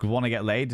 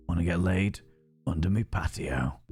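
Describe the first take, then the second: First: Said in the usual way. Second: Lower, gruff Yorkshire voice; Yorkshire accent. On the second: Shown as a demonstration. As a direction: growl it out like a Yorkshire thug. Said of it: "Giving him Chunk's accent".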